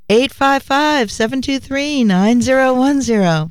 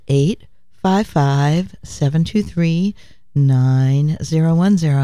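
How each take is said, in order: First: It is said loudly. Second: It is said at normal volume.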